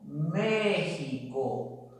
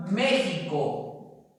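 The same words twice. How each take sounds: First: México very slow and softer, each syllable drawn out; slow model word; slow careful demo. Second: Said in the usual way. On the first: Shown as a demonstration. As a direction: dictate México slowly to the class.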